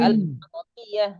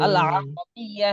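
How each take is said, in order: First: Throaty Arabic recitation demo; Arabic letter demo. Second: আল আরবিয়া drawn out slowly, Arabic sounds; teacher modelling আল আরবিয়া slowly for the class; slow, careful Arabic letter name; Arabic letter demo. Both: Shown as a demonstration. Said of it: "সকলে একটু আইনটা উচ্চারণ করুন".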